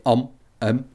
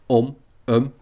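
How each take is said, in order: Both takes have the same delivery.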